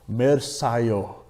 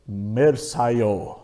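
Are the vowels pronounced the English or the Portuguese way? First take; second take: English; English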